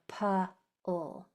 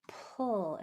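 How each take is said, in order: First: The P is followed by an added uh vowel. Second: The P is only air, no added vowel. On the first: The speaker calls it wrong. "and not a P-ul" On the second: The speaker calls it right. "make sure that it's a pull"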